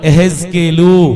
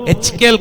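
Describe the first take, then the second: First: The name is full and starts with a ye sound. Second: The name is clipped and starts with an h sound. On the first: The speaker calls it right. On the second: The speaker calls it wrong. "హెచ్కేల్ కాదు"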